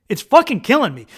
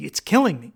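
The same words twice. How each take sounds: First: Louder, higher insistence on killing; raised, emphatic outburst; agonized emphasis. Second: Said in the usual way. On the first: Retold or imitated. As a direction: hit it harder, as if in agony. Repeats it, escalating in agony.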